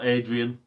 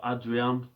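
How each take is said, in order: First: The name is pronounced the English way. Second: The name is pronounced the Spanish way. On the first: The player is not good enough to carry his real name. "as we, we call him on this channel" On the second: The player is good enough to carry his real name. "deserve that little accent, and you pronounce the name differently"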